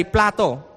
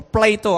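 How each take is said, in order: First: Plato with an open "ah", PLAH-toh. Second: Plato with a long "ay", PLAY-toh. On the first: Speaker naming the philosopher to listeners, Plato said PLAH-toh. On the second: Speaker offering the other pronunciation, Plato said PLAY-toh. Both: Shown as a demonstration. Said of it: "I don't know how to pronounce that".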